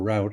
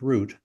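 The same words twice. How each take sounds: First: It is said the way Michigan speakers say it. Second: It is said in a non-Michigan way.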